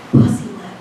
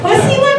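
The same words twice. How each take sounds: First: Mock-solemn whispered password; secretive whisper. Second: High-pitched laughing disbelief; incredulous echo. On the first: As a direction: whisper it like a top-secret code. Friend reveals secret password. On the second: Retold or imitated. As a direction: echo it way up high, unable to believe it. Teller repeats password in disbelief.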